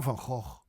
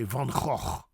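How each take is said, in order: First: Van Gogh with lighter, gentler g's; southern soft Gogh. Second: Van Gogh with rasped "khokh"; northern throaty Gogh; harsh G. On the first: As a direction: ease the scrape in Gogh. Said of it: "soft G". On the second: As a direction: scrape the g's in Gogh. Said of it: "I say". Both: Shown as a demonstration.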